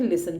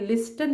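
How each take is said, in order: First: लिसन with silent T, li-sun; right way. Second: लिस्टन with the T sounded, lis-ten; wrong way. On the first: Teacher shows children the right way: लिसन, T silent. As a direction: say लिसन with no T sound, as the correct version. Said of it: "हम बोलते हैं लिसन". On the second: Teacher shows children the wrong way: लिस्टन with T spoken. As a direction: say लिस्टन pronouncing the T, as the wrong version. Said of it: "लिस्टन नहीं बोलते". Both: Shown as a demonstration.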